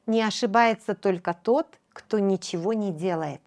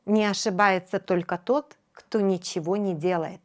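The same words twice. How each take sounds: The two takes are said the same way.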